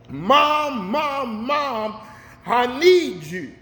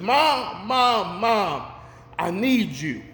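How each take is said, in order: First: It is called out much more loudly. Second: It is called out at normal volume.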